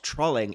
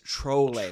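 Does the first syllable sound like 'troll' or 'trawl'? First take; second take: trawl; troll. First: The first vowel sounds like the one in 'trawl'. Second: The first vowel sounds like the one in 'troll'. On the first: The speaker calls it wrong. "It's not trolling" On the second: The speaker calls it right. "You don't change the first part of the word"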